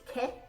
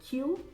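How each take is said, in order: First: It sounds like the Spanish word que. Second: It sounds like the English letter name Q. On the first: "as in Spanish for what" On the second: "You can pronounce it Q"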